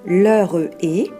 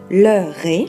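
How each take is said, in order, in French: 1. Le e final est prononcé, ce qui donne trois syllabes. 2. Le e final est muet, ce qui donne deux syllabes. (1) "Vous ne devez pas prononcer l'heure est" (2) "vous devez faire la liaison. Vous obtiendrez donc l'heure est"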